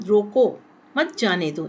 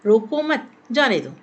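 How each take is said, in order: First: रोको alone, then मत जाने दो together; pause after रोको. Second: Louder, रोको मत together, then जाने दो; group रोको मत, stress जाने दो; pause after मत. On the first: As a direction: break after रोको, stress on मत. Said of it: "रोको के बाद अल्प विराम लगाने से". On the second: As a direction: break after मत, punch जाने. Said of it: "रोको मत के बाद अल्प विराम". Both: Shown as a demonstration.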